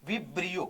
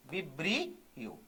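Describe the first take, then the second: First: Said in the usual way. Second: "vibrio" stretched out softly, low; slow dictation. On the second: Shown as a demonstration. Teacher repeats a term for students, "vibrio" slow and soft. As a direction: draw "vibrio" out slowly and softly, part by part.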